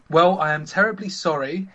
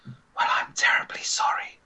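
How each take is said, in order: First: Lightly posh lady, voiced up; a hint of posh. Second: Whispered posh lady; breathy upper-class whisper. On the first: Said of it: "if you don't understand posh". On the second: Acted. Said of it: "she says in her posh voice".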